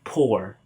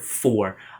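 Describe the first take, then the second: First: The word begins with a P sound. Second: The word begins with an F sound. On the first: "A lot of Filipinos would pronounce it poor" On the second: "let's say the word for"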